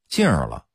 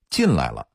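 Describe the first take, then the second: First: The lai syllable is dropped and replaced by an r-ending. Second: It is said in full with the syllable lai.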